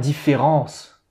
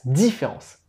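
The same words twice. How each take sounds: First: The last syllable is emphasized. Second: The first syllable is emphasized. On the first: The speaker calls it wrong. "Pas différence, pas le E de ans" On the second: The speaker calls it right. "dès que tu entends le son I"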